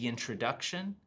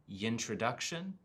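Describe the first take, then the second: Both takes have the same delivery.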